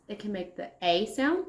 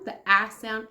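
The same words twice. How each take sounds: First: A said as ay, the letter's name; long A sound. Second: A said as a quick flat short a; short A sound. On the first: Teacher showing kids the long A, ay. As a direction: say A as a long ay, like in Adelina. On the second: Teacher contrasting for kids the short a. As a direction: say A as the short a of apple. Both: Shown as a demonstration.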